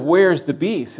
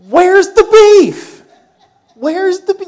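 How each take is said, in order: First: Said in the usual way. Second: Put-on loud, high-pitched old-lady catchphrase; funny older lady. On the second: Pastor imitating an old lady's burger commercial, comically loud and high. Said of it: "older lady who was really kind of funny in the way she said it".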